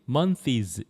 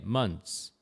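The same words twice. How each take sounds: First: The ending is not a 'ts' sound. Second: The ending sounds close to 'ts'. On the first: The speaker calls it wrong. "일부 학생들이 months 이렇게 하는 사람이 등장했습니다" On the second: The speaker calls it right. "이 ths가 츠 비슷하게"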